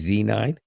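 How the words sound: The letter Z is said the American way. "if I'm in America"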